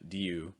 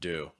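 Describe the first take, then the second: First: A y-like glide comes before the oo vowel. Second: The oo vowel comes directly without a glide. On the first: The speaker calls it wrong. "not do" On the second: The speaker calls it right. "more do, going right to the vowel"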